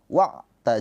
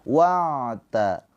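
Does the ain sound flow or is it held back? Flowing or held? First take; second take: held; flowing. First: The ain sound is held back and stopped. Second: The ain sound flows moderately, not cut off. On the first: The speaker calls it wrong. "jangan dibaca dengan wa'ta, wa'ta. Jangan tertahan ya" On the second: The speaker calls it right. "Ain mengalirnya sedang"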